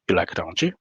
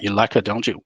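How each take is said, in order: First: The voice rises at the end of the tag. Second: The voice falls aggressively at the end of the tag.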